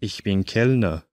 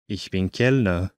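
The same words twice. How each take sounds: The two takes are said the same way.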